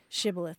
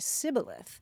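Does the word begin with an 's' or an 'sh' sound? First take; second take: sh; s. First: The word begins with an 'sh' sound. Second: The word begins with an 's' sound. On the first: The speaker calls it right. "the Ephraimites couldn't say shibboleth" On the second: The speaker calls it wrong. "They would say sibboleth"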